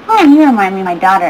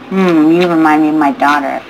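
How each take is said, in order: First: It sounds innocent and fatherly. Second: It sounds sick, evil and leering.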